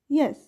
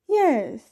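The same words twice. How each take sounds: First: The voice falls from mid pitch to low. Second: The voice falls from high pitch to low. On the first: The word sounds calm and neutral. "The low falling tone starts in the middle of the voice range and goes down" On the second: The word sounds interested and involved. "the voice falls from a high to a low pitch"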